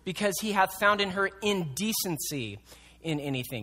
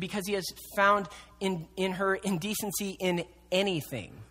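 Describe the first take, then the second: First: The stress falls on the word indecency. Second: The stress falls on the word anything. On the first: Divorce is allowed only for unchastity. "It's emphasizing that word" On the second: Divorce is allowed for any cause at all. "with the emphasis on anything"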